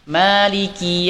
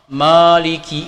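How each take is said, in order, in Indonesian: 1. Suku kata pertama terdengar ringan dan tipis. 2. Suku kata pertama terdengar berat dan dalam. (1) "ma harus istifal" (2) "tidak boleh membacanya ma maliki, ini ini keliru"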